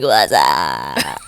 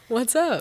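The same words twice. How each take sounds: First: It is said in a Scream-killer voice. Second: It is said in a normal voice.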